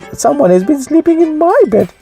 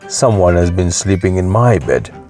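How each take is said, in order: First: It is said in a small, shrill voice. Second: It is said in a great big voice.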